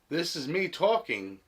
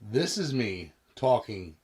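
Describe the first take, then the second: First: The voice is captured from the left side. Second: The voice is captured from directly behind. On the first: "on the left side of the microphone" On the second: "directly behind the mystery microphone"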